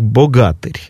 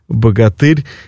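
First: The stress shifts to fit the epic verse rhythm. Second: The stress falls in its usual modern position. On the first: This is the form that fits the rhythm of epic songs. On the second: This is the ordinary literary form of the word.

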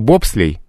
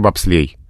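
First: The stress is on the first syllable. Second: The stress is on the last syllable. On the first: This is the stress of the word as originally borrowed. "Было бобслей" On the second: This is the stress the word has in Russian now. "стало в русском языке бобслей"

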